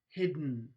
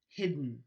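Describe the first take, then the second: First: The d releases straight into the n sound. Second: The d releases straight into the n sound.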